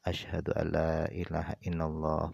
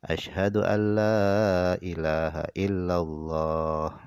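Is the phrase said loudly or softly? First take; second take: softly; loudly. First: The phrase is said quietly. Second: The phrase is said loudly. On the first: "dengan lirih" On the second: "baru dikeraskan"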